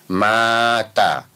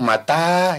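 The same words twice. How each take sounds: First: The first vowel is long, the second short. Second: The first vowel is short, the second long. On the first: Someone has died. "mimnya yang panjang" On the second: It asks when. "kalau tanya yang panjang"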